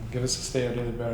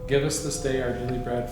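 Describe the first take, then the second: First: The line is spoken quickly. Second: The line is spoken slowly and clearly. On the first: "I gotta say it fast" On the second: "say it nice and slow and enunciated"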